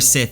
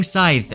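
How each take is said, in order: First: The word sounds like 'Sith', with a short vowel. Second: The word sounds like 'scythe', with a long vowel. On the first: This is the author's intended pronunciation. "Rothfuss says the correct pronunciation for scythe is actually Sith" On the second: This is the pronunciation commenters insist on. "I prefer saying scythe over Sith"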